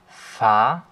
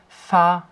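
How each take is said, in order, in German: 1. Die Tonhöhe steigt zum Ende hin an. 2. Die Tonhöhe bleibt hoch und gleichmäßig.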